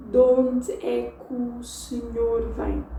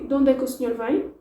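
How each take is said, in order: First: Slower, words still joined; De onde é que o senhor vem slow but linked; slowed down version. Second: Quick, linked; De onde é que o senhor vem as one fast chunk; fast native speed. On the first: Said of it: "slow it down and see if I don't say it like this". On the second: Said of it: "If, if I say". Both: Shown as a demonstration.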